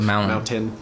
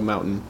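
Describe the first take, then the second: First: The middle T sound is pronounced. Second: The middle T sound is dropped. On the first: This is how others say it. "Instead of mountain" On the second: This is how locals from Colorado say it. "we don't pronounce our T's. We go mountain"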